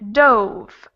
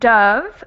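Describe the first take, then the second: First: The vowel is a rounded 'oh' sound. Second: The vowel is an open 'uh' sound. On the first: It is the past tense of dive.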